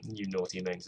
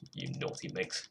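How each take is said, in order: First: Said in the usual way. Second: Low, hushed naughty tease; teasing dirty talk. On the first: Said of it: "to say in a British accent". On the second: Pretend. Musician playfully scolding a misbehaving track, low hushed tease. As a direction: drop low and soft, mock flirting. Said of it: "not a good phrase to say".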